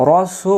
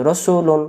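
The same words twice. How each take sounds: First: রসুলুন with "su" stretched out long, pitched higher; slow, sustained "suuu" in রসুলুন; long held vowel. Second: রসুলুন with a short, unheld "su"; brisk, short-vowel রসুলুন; no elongation. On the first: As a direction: hold the middle vowel of রসুলুন. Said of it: "আর যখন বলবো". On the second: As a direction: say রসুলুন without stretching. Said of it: "আর যদি টান না দিই". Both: Shown as a demonstration.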